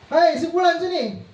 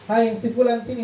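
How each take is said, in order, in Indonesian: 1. Diucapkan dengan keras dengan nada kasar. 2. Diucapkan dengan lembut dengan nada ramah. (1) "dengan suara yang keras" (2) "dengan seperti posisi teman kita panggil dia"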